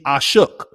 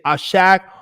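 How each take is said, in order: First: The second vowel is a short uh sound. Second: The second vowel is an open ah sound. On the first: "we can change the A to a U" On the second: "You can say Ashak"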